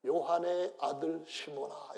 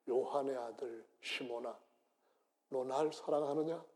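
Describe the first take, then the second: First: 요한의 slowed and weighted; stress on 요한의. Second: Tender Jesus. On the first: Shown as a demonstration. Preacher quoting Jesus to Peter, stressing 요한의. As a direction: lean slowly on 요한의. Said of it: "이렇게 말합니다". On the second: Acted. Jesus gently asking Peter for his love. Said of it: "예수는 베드로한테 이렇게 말씀합니다".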